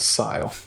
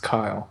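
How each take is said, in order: First: The name begins with an S sound. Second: The name begins with a K sound. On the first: "I would pronounce it as Sile" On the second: "I refused to pronounce it as Kyle"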